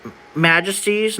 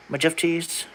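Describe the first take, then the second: First: Said in the usual way. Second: "Majesties" said "majefties", soft; quiet "majefties"; long-s reading. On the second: Shown as a demonstration. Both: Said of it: "not majesties".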